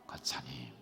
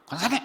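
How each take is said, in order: First: Soft, tender calling of the title; gentle call. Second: Loud, high, jabbing shout of 권사님; sharp call. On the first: Pastor shows the congregation how to call gently. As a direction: call her kindly, almost a whisper. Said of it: "얼마나 부드러워요". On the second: Pastor shows the prickly way to call someone. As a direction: bark the title like a rebuke. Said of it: "그러면 이거 뭐 잘못한 거야?". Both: Shown as a demonstration.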